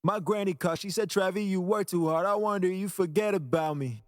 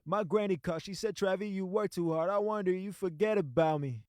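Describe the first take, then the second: First: The polished take with full chain; after processing. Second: Raw, unprocessed vocal playback; the dry take before the chain; before processing. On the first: Playing the vocal after the mix, processed vocal. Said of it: "And then after". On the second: Playing the vocal before the mix, dry vocal. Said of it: "before and after". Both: Shown as a demonstration.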